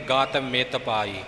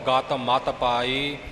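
First: The middle word is said with an 'i' vowel. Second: The middle word is said with an 'a' vowel. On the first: The speaker calls it wrong. "ਗਤ ਮਿਤ ਪਾਈ ਪਾਠ ਨਹੀਂ ਹੈ।" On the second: The speaker calls it right. "ਇਵੇਂ ਹੀ ਆਪਾਂ ਉਚਾਰਨ ਕਰਨਾ ਹੈ।"

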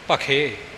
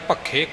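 First: The middle consonant is short and light. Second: The middle consonant is held tight and doubled. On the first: The speaker calls it right. "ਜਿਵੇਂ ਇਹ ਉਚਾਰਨ ਆਪ ਜੀ ਨੇ ਸਰਵਣ ਕੀਤਾ, ਇਵੇਂ ਬੋਲਣਾ" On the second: The speaker calls it wrong. "ਕੱਸ ਕੇ ਨਹੀਂ ਬੋਲਣਾ"

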